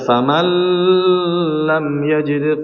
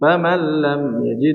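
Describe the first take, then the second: First: The nasal sound is held with a long hum. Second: The nasal sound merges quickly into l, unhummed. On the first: The speaker calls it wrong. "Nggak boleh dibaca" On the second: The speaker calls it right. "nggak boleh lama-lama ya"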